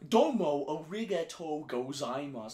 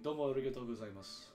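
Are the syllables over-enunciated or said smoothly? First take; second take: over-enunciated; smooth. First: Each syllable is over-enunciated with a foreign accent. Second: The syllables flow smoothly without exaggerated enunciation. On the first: The speaker is marked as a foreigner. "they kind of just over enunciate the syllables to show that they're foreigner" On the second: The speaker knows the phrase well. "I can say it that because I know how to say that"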